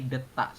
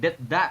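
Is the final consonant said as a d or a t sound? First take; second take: t sound; d sound. First: The final consonant is voiceless like a t. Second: The final consonant is voiced like a d. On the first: The speaker calls it right. "tapi detak seperti itu" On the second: The speaker calls it wrong. "Bukan deda"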